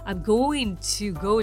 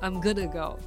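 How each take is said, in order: First: 'Going to' is said in full. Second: 'Going to' is reduced to 'gonna'. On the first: "じゃなくて" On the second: "I'm gonna go かっこよくないですか？"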